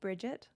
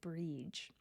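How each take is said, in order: First: The name is pronounced as Bridget. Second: The name is pronounced as Breege. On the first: This is the common current pronunciation. "most folks will currently pronounce that still Bridget" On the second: This is an acceptable alternative pronunciation. "you wouldn't be incorrect to pronounce it Breege"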